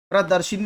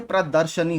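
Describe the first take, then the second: First: प्रदर्शिनी said with an i before नी, pra-dar-shi-ni; wrong form. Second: प्रदर्शनी said without the i, pra-dar-sha-ni; correct form. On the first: Teacher showing the wrong spelling aloud: प्रदर्शिनी with i. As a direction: say प्रदर्शिनी as the mistaken version, with the extra i. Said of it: "प्रदर्शिनी नहीं होता". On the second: Teacher giving the right spelling aloud: प्रदर्शनी without i. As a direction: say प्रदर्शनी as the correct version, plain a before नी. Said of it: "प्रदर्शनी होता है". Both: Shown as a demonstration.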